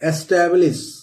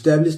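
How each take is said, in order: First: The word starts with a vowel before the s. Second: The word starts directly with an s sound. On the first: The speaker calls it right. "ऐसे दोस्तों पढ़ते हैं" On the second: The speaker calls it wrong. "स्टैब्लिश नहीं पढ़ते हैं"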